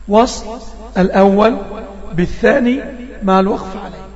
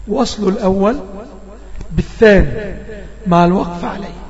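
The two takes are said the same way.

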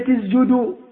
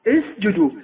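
First: The middle consonant is voiced like a z. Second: The middle consonant is a clear voiceless s. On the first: The speaker calls it wrong. "عندما نقرأ يقول" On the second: The speaker calls it right. "فكانوا مباشرة ينبهون على هذا الخطأ"

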